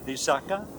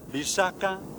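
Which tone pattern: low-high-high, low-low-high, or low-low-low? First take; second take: low-low-high; low-high-high. First: Two low syllables are followed by a high one. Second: One low syllable is followed by two high ones. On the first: It means a promise. "with two low and one high tone" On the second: It means a poison. "a low and two high tones"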